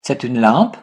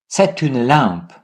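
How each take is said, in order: First: "C'est une lampe" rising at the end on "lampe"; question intonation. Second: Slow "C'est une lampe" falling on "lampe"; statement intonation. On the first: French teacher leads repetition of the intonation question, "lampe" rising. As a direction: ask it by raising "lampe". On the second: French teacher leads repetition of the statement, slow with "lampe" falling. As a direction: state it slowly, letting "lampe" drop. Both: Shown as a demonstration. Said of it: "And now let's repeat".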